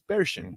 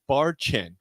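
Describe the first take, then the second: First: The name begins like 'bear' and ends 'shin'. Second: The name begins like 'bar' and ends 'chin'. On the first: This is how the name is actually said. The speaker calls it right. "but it's Bearshin. That's how you pronounce it" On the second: This is how the spelling seems to read. The speaker calls it wrong. "it looks like Bar Chin"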